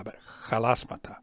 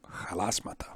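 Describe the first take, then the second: First: Halasmata with a rough throaty h and rising tune. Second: Halasmata with a rough throaty h, quieter and rising. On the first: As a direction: push rough air for the h of halasmata. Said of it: "not yalasmata". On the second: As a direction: breathe rough air into Halasmata. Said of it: "not yalasmata, but halasmata". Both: Shown as a demonstration.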